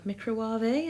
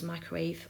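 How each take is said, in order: First: The word is pronounced in an unusual, imitated way. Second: The word is pronounced the ordinary way.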